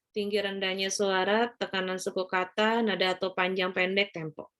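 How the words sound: The pitch stays flat and monotonous throughout. The speaker calls it wrong. "Sungguh sangat tidak menarik, flat"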